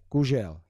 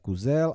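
First: The middle consonant is a 'zh' sound. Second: The middle consonant is a plain 'z' sound. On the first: The speaker calls it right. "ale kužel" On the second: The speaker calls it wrong. "Ne kuzel"

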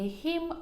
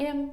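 First: The word begins with an audible h sound. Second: The word begins without any h sound. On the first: "тобто не him" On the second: "В певних словах ось це H на початку випадає"

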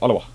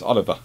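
First: The middle consonant is an English W sound. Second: The middle consonant is a V sound. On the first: The speaker calls it wrong. "I pronounce it" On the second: The speaker calls it right. "but it's Oliver, apparently"

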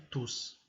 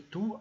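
First: The word ends with an audible s sound. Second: The word ends without a final s sound. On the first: It stands alone as a pronoun. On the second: It comes before a noun with an article.

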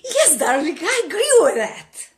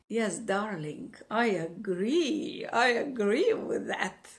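First: It sounds eager and wholeheartedly agreeing. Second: It sounds attracted and flirtatious.

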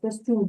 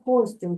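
First: The stress is on the last syllable. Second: The stress is on the first syllable. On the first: This is the habitual stress the learners are used to. The speaker calls it wrong. "як ми привикли" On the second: This follows the second-to-last syllable rule. The speaker calls it right. "а буде йти костюм"

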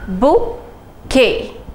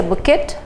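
First: The word ends on a vowel with no T sound. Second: The word ends with a clear T sound. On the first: The speaker calls it right. "Now the T is absolutely silent" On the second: The speaker calls it wrong. "We don't say a bouquet"

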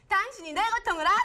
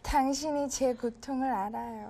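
First: It is said in a strong, pleading tone. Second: It is said in a sweet, loving tone.

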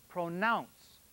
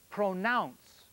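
The two takes are said the same way.

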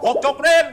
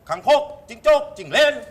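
First: The phrase is said quickly with syllables clipped short. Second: The phrase is said slowly with every syllable full.

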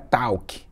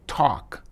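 First: The word does not sound like a knock. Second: The word sounds like a knock, 'toc'. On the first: The speaker calls it wrong. "não é talk" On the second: The speaker calls it right. "é talk, tipo bater na parede"

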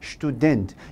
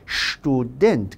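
First: It begins with an English-style 'st' sound. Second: It begins with 'sht', stressed at the end. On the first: The speaker calls it wrong. "영어 발음대로 student가 아니라" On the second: The speaker calls it right. "스튜가 아니라 student 강세 뒤에 오는 거야"

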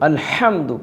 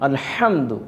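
The two takes are said the same way.

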